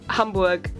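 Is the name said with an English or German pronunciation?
German. The name is said with a German pronunciation. The speaker calls it right. "I also can't say Hamburg"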